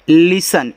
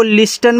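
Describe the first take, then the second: First: लिसन with no t, s running into -an; silent T. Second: लिस्टन with a hard t after the s; T wrongly sounded. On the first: Teacher shows learners the correct word, silent T in लिसन. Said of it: "इसको पढ़ते हैं". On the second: Teacher warns learners off this reading, T sounded in लिस्टन. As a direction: say लिस्टन, pronouncing the T as spelt. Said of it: "इसको लिस्टन मत पढ़ना". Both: Shown as a demonstration.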